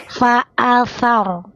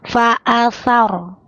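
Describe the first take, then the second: Both takes have the same delivery.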